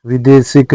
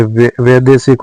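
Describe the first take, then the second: First: विदेशिक starting with i; wrong vowel. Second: वैदेशिक starting with ai; correct vowel. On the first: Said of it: "नहीं होता है". (विदेशिक में वि) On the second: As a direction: open वै in वैदेशिक. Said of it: "होता है". (वैदेशिक में वै) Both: Shown as a demonstration.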